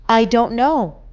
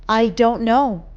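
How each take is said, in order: The two takes are said the same way.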